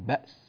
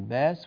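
First: The glottal stop is clearly pronounced. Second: The glottal stop is dropped from the word. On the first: The speaker calls it right. "وإنما نقول" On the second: The speaker calls it wrong. "لا نقول"

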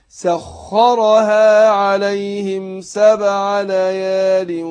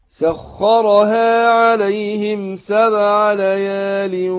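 Both takes have the same delivery.

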